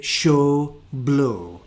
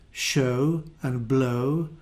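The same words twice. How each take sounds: First: "show", "blow" with a pure Scottish O, no glide; Scottish accent. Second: "show" and "blow" with the RP glide; RP vowel. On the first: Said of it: "I say". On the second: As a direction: say "show" the standard way. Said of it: "instead of". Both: Shown as a demonstration.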